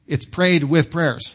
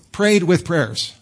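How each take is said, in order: First: "prayed with prayers" said slowly, stressing "prayed"; slow, deliberate "It's prayed with prayers"; slow literal translation. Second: "Prayed with prayers" said slowly, each word set apart; deliberate "Prayed with prayers", slow and even; slow literal translation. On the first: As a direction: lean on "prayed", unhurried. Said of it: "That's what it means". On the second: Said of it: "so a verb and a noun". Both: Shown as a demonstration.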